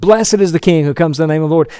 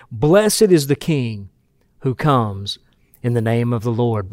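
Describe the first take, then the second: First: Lively crowd-style recitation; fast crowd cry. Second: Slow, hushed and measured, each word laid down; slow solemn reading. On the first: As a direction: rattle it off as an eager acclamation. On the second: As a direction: reverent slow recitation. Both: Shown as a demonstration.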